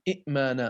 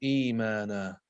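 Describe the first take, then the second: First: It begins with two separate glottal stops. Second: It begins with one glottal stop and a long vowel. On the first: "بدلا من قولهم إئمانا" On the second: "قالوا إيمانا"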